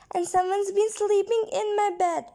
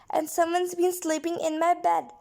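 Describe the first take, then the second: First: It is said in a tiny, squeaky voice. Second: It is said in a medium, complaining voice.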